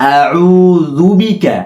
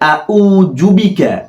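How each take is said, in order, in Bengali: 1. 'auzu' শব্দের 'u' ধ্বনিটি টেনে পড়তে হয়। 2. 'auzu' শব্দের 'u' ধ্বনিটি হ্রস্ব। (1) "আ তাড়াতাড়ি, উ একাই টান হবে" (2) "অনেকে আউযু বিকা পড়ে, এটা ভুল।"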